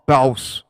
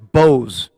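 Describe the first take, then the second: First: The name has an 'ow' vowel. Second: The name has a long 'oh' vowel. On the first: "or ba- Baus" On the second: "It's Bose"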